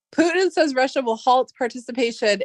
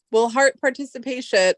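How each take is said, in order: First: Said in the usual way. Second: "halt" misread as "hart", with an r; misread word. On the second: Real, not acted. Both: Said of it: "Oh, halt, halt, halt".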